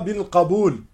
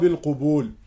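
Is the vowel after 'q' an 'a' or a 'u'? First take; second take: a; u. First: The vowel after 'q' is an 'a' sound. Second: The vowel after 'q' is a 'u' sound. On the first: The speaker calls it right. "نقول هذا الحديث يحظى بالقبول" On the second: The speaker calls it wrong. "ولا نقول هذا الحديث يحظى بالقبول... بفتح القاف وليس بضمها"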